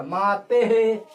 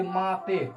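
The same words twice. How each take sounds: First: माते है as "maa-te-he", very slow and loud; visarga echo. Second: Said in the usual way. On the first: Shown as a demonstration. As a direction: stretch माते and end on a loud breathed "he". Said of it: "विसर्ग का उच्चारण हो जाएगा एक जैसा". (माते है को धीरे, ज़ोर से "मा-ते-हे" बोलें) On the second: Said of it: "इसका विसर्ग का उच्चारण हो जाएगा".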